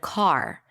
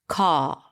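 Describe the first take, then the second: First: The R at the end is clearly pronounced. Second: The R at the end is dropped. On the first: "instead of car" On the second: "in British English, the R drops"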